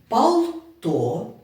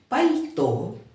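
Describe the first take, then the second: First: The L sound is hard, not softened. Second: The L sound is softened. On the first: The speaker calls it wrong. "назвати слово без пом'якшення" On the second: The speaker calls it right. "замість"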